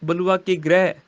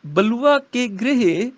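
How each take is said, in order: First: ਗ੍ਰਹਿ as open 'grai'; common misreading. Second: ਗ੍ਰਹਿ slow and high, as 'gre-he'; corrected reading. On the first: Retold or imitated. Teacher quoting what many say, ਗ੍ਰਹਿ as 'grai'. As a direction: say ਗ੍ਰਹਿ in one open syllable. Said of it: "ਕਈ ਕਹਿਣਗੇ ਗ੍ਰਹਿ". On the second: Shown as a demonstration. Teacher modelling the line, ਗ੍ਰਹਿ as drawn-out 'grehe'. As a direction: slowly close ਗ੍ਰਹਿ to 'grehe'. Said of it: "ਇੱਥੇ ਪਾਠ ਹੈ ਗ੍ਰਹਿ".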